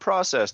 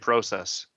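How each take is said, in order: First: The first vowel sounds like 'ah'. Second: The first vowel sounds like 'oh'. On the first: The speaker calls it wrong. "not process. There's no A in there" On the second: The speaker calls it right. "I say process"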